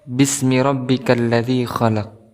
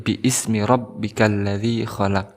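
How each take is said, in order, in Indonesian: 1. Bi menyambung langsung ke smi tanpa hentian. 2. Hentian glotal memisahkan bi dari ismi. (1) "hamzah di sini ismi ini tidak dibaca" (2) "tidak dibaca seperti bi ismi rabbikal ladzi khalaq, tidak"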